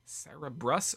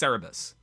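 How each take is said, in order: First: An extra r sound comes before the last syllable. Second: No extra r sound comes before the last syllable. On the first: The speaker calls it wrong. "I think I'm adding an R in there" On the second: The speaker calls it right. "I think it's just Cerebus"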